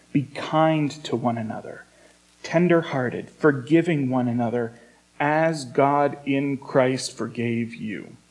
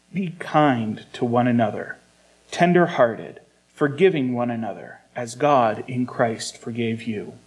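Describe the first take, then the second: Both takes have the same delivery.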